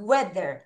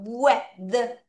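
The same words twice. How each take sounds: First: Weather in one go, "we-ther"; joined-up word. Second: Weather slowly split into "we-the-er"; syllable by syllable. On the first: Teacher puts the halves together for pupils, Weather said as one word. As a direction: blend both syllables of Weather, falling low. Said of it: "한꺼번에 갈게 크게 하자". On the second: Teacher breaks the word down for pupils, weather split sound by sound. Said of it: "음절을 여기서 끊을게요". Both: Shown as a demonstration.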